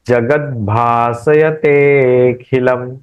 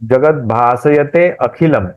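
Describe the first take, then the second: First: 'te' is lengthened and flows straight into khilam. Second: A separate 'a' vowel is sounded before khilam. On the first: The line fits the meter. The speaker calls it right. "एक साथ बोलेंगे, with flow बोलेंगे" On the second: The line breaks out of the meter. The speaker calls it wrong. "अ का उच- जगत भासयते अखिलम बोलने से वो टूटेगा"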